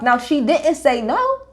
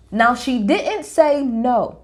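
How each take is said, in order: First: Slow, with no lifted on a rising tune; stress on no. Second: Very slow, didnt leaned on with a falling tune; stress on didnt. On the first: Making viewers notice the answer, stressing no. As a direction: let no hang up high and slow. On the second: Explaining Lisa's wording to viewers, punching didnt. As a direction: press down hard on didnt. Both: Shown as a demonstration.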